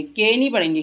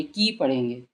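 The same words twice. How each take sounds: First: के said as the wrong short vowel; के, not की; wrong reading के. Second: की with long ee, said low and soft; की read right, long vowel; correct की. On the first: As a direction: read के wrongly on purpose. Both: Shown as a demonstration. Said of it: "ये देखिए".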